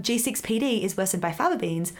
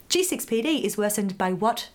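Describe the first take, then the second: First: Said in the usual way. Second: Rising question ending on "what"; quiz question. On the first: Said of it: "you read this quiz". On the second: Acted. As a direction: read it as a quiz prompt, lifting "what" at the end. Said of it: "you read this quiz and it's like".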